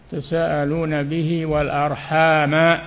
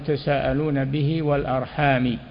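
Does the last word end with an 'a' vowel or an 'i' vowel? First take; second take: a; i. First: The last word ends with an 'a' vowel. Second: The last word ends with an 'i' vowel. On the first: Beware of cutting the ties of kinship. The speaker calls it right. "بالفتح" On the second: People ask one another by the ties of kinship. The speaker calls it wrong. "أما قراءة الخفض الجر"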